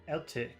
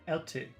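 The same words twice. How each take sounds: No difference in how they are said.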